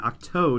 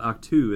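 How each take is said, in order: First: The word ends with an 'oh' vowel. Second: The word ends with an 'oo' vowel. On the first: The speaker calls it right. "that is the correct pronunciation then" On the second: The speaker calls it wrong. "not Octu, as I've been saying"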